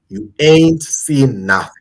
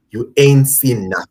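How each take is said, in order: First: Slow, drawn-out American accent; mock American movie-trailer line, slowed down; lightly put-on American accent. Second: Said in the usual way. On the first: Shown as a demonstration. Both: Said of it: "I'm using my American accent".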